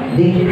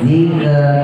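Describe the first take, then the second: First: The consonant is released with a soft hiss. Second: The consonant is released with an audible bounce. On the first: The speaker calls it right. "Hamas aja desis, desis" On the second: The speaker calls it wrong. "nah itu mantul namanya ... bukan itu"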